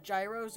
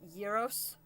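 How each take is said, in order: First: It is said with an Americanized pronunciation. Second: It is said with a Greek-style pronunciation.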